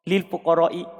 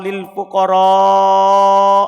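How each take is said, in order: First: The vowel before the hamza is cut short. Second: The vowel before the hamza is held long. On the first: The speaker calls it wrong. "tanpa mat" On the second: The speaker calls it right. "dibaca panjang"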